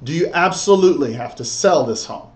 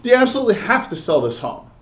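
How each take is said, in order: First: Measured question with "sell" leaned on; "absolutely" and "sell" given firm weight; stress on SELL. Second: Quick, higher-pitched run-through; unemphasized take. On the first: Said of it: "Make sure you underline, emphasize". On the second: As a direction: rush the question without leaning on "sell". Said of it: "You see how the difference there?". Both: Shown as a demonstration.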